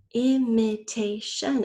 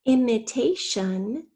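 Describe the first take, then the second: First: "Imitation" slowly in four distinct beats; syllable by syllable. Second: Said in the usual way. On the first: Shown as a demonstration. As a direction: break "Imitation" into syllables, rising on the last. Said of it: "the fourth syllable is". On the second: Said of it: "First, say the whole word".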